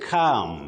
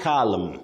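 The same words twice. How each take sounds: First: The L is silent. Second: The L is pronounced. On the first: The speaker calls it right. "Just like when you say calm" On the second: The speaker calls it wrong. "not calm"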